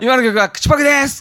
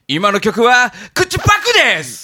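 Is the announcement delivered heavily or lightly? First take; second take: lightly; heavily. First: It is read in a light, casual way. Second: It is read in a heavy, weighty way. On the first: The speaker calls it right. "もうちょっとあっさりしてもよかった" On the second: The speaker calls it wrong. "それ読み方違ったじゃん。"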